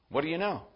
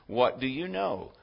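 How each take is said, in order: First: It sounds like a light, casual greeting. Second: It sounds like a genuinely curious question. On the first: It is just a friendly hello. "We sometimes greet one another with" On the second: The asker really wants to learn something. "we inquire with the intent of actually learning"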